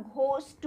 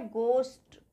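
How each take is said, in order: First: घोस्ट with a breathy, aspirated GH; wrong pronunciation. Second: घोस्ट said "gost", with a plain hard G; silent H. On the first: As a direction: sound the H after G in घोस्ट. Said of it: "जो कि गलत pronounce है". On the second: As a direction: drop the H in घोस्ट. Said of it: "इसमें एच silent रहता है". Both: Shown as a demonstration.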